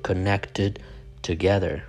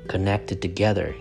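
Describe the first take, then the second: First: The words are said separately, one by one. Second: The words run together as one unit. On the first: The speaker calls it wrong. "You don't say connected together" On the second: The speaker calls it right. "like how two words are connected together"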